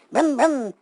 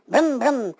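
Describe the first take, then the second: No difference in how they are said.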